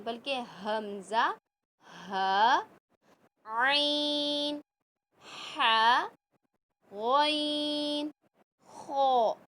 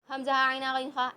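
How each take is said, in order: First: Each letter drawn out slowly from the middle of the throat, आइन and गॉइन long; correct throat letters. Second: हमज़ा, आइन, हा, गैन, खा run together quickly and flatly; wrong careless way. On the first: Teacher modelling the correct throat letters for students. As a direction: pronounce every throat letter slowly and distinctly. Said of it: "इसी तरीके से बताएंगे". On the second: Teacher showing students how not to read the letters. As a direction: rattle them off without throat sounds. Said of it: "ऐसे नहीं". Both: Shown as a demonstration.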